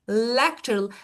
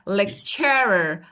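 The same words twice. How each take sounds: First: The stress is on the first syllable. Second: The stress is on the second syllable. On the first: The speaker calls it right. "I say lecturer, lecturer. Look at my mouth. I open it louder, of course" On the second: The speaker calls it wrong. "If I move it to the second part, it would be like lecturer"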